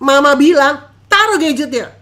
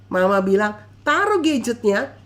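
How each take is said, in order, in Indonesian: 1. Suaranya dinaikkan dan lebih tegas. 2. Suaranya tenang dan volumenya biasa.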